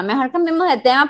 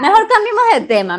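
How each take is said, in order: First: Said in the usual way. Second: Fast, higher, brushing it off; quick high switch. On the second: Acted. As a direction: hurry to drop the subject. Jokingly ending the touchy topic.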